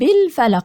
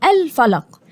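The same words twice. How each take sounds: First: It flows straight from the preceding word. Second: It starts with a clear glottal stop. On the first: The word is joined to the previous word. "هوصل هقول برب الفلق، يعني مش هنطق ال- همزة الوصل" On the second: The word begins the utterance. "عند البدء بها أقول الفلق"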